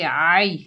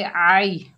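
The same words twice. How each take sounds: First: आई said as a plain long ai, the way not to say it; wrong pronunciation. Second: आई said softly and quickly, the ya glided lightly; soft quick ain. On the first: Teacher showing the wrong reading of ain with ya leen. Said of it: "आई नहीं बोलेंगे". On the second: Teacher showing the correct soft, quick ya leen. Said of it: "नरमी और जल्दी से अदा करेंगे". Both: Shown as a demonstration.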